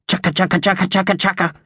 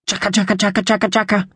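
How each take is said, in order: First: High, harsh magpie rattle; harsh battle cry. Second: High rattling magpie chuckle between sobs; throaty chuckle. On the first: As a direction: chatter out a magpie war cry. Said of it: "It was harsher than Thug's, more of a battle cry". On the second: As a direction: chatter out a magpie's tearful chuckle. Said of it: "managed a throaty chuckle between sobs". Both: A narrator's reading.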